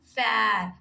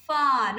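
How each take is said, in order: First: Fair with an air vowel; the wrong way, fair. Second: Far with an open ah vowel; far, not fair. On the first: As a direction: say Fair as the contrast to far. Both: Shown as a demonstration. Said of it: "not fair".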